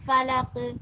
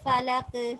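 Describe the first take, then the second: First: The final consonant is released with a strong bounce. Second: The final consonant is released with a strong bounce.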